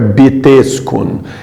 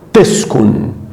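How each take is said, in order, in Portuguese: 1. Falado devagar, com um b claro antes do t. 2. Falado rápido, com o b quase não ouvido. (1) "Se falar muito devagar, o B T fica beteskun" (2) "o certo é teskun"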